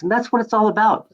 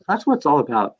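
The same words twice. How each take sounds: First: "what" lifted high, emphatic. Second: Said in the usual way. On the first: Real, not acted. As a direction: stress on "what" and the pitch is higher. Repeated moral of story.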